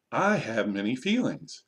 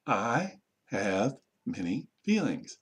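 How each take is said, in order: First: Said in the usual way. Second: Very slow, a pause after each word; word-by-word modelling. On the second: Shown as a demonstration. Teacher modelling a sentence for learners, slow word by word. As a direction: separate every word for learners to copy.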